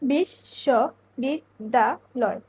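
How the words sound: The word is split into five separate chunks. "এক্ষেত্রে অক্ষর হচ্ছে পাঁচটি"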